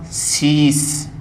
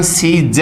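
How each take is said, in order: First: सीस slowly, ending in स, not ज; correct hissed ending. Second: सीज ending in voiced ज; wrong voiced ending. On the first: Teacher gives the right form, correct hissed ending. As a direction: draw out सीस to a voiceless s. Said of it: "से आएगा". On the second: Teacher names the form to avoid, wrong voiced ending. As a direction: close सीज with a j sound. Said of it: "इसका सही उच्चारण सीज नहीं". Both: Shown as a demonstration.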